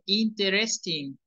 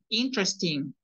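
First: The middle e is pronounced, giving four syllables. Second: The middle e is dropped, giving three syllables. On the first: The speaker calls it wrong. "no se dice interesting" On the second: The speaker calls it right. "nos comemos una E, entonces nos queda tres"

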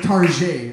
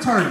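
First: Target is said like North Scottsdale people would. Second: Target is said in his own normal voice.

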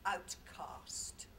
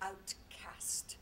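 First: It is said in an English accent. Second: It is said in an American accent. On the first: "in my English accent" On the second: "Americans say outcast"

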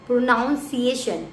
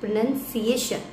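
First: The second syllable sounds like 'noun'. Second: The second syllable sounds like 'nun'. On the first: The speaker calls it wrong. "उसकी वजह से ये confusion create होती है" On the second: The speaker calls it right. "No, it will be प्रोनाउंसिएशन"

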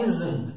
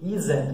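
First: The z goes straight into the n. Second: A vowel sound is heard between z and n. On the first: "mas o nativo fala isn't, zn't, ele só fala um Z" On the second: "A gente tem a tendência de falar"

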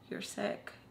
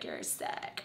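First: It is said seriously. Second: It is said jokingly.

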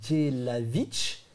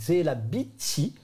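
First: The name ends in a consonant sound. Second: The name ends with an added vowel, Japanese-style. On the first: "si tu le prononces vraiment" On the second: "quand tu le prononces à la façon japonaise"

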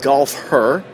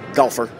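First: The name is said slowly, in separate parts. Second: The name is said quickly, run together.

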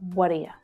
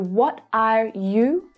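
First: The words 'are you' are reduced to weak schwa sounds. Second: The words 'are you' are said with full, clear vowels. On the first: "becomes what are you" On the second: "So what are you becomes"

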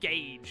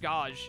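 First: The word has the standard pronunciation. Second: The word has the speaker's local pronunciation. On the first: This is how it is supposed to be said. "I know it's supposed to be, like, gauge or something like that" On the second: This is how people in the speaker's area say it. "this is how people where I live pronounce it"

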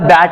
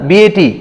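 First: The letters are blended into one short word. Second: Each letter is said by its letter name. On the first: The speaker calls it right. "वाचन करताना त्याला बॅट असं म्हणतो" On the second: The speaker calls it wrong. "परंतु आपण असं नाही म्हणत BAT असं नाही बोलत"

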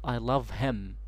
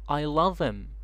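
First: The h in 'him' is clearly pronounced. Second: The h in 'him' is dropped. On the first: The speaker calls it wrong. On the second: The speaker calls it right. "im instead of him"

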